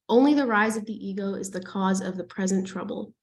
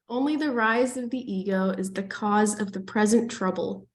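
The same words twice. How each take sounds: First: It is read quickly. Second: It is read more slowly.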